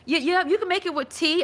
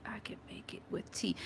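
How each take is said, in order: First: Said in the usual way. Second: Barely audible, whispered to oneself; whispered reading. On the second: Real, not acted. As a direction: read a comment under your breath. Reads viewer comment to herself.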